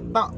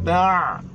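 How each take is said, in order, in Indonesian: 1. Bunyinya berakhir dengan hamzah biasa. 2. Bunyinya berakhir dengan bunyi ain di tenggorokan. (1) "Jangan baca ta' ... Kalau baca ta' itu adalah hamzah" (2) "kena baca dengan ta' ... huruf ain"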